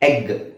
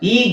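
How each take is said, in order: First: The vowel is a short 'e' sound. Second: The vowel is a long 'ee' sound. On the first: The speaker calls it right. "ಇದರ ಉಚ್ಚಾರಣೆ ಏನು ಎಗ್" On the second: The speaker calls it wrong. "ಈಗ್ ಅಂತ ಹೇಳಲ್ಲ"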